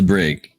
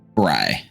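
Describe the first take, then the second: First: The word ends in a hard G sound. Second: The word ends in a vowel, like 'bry'. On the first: This is how the locals say it. "here in Alcastar, they pronounce it Brig" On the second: This is the intended pronunciation. "Bry. Perfect"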